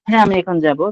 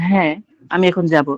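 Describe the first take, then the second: First: The first word runs straight into the rest. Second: A short pause follows the first word.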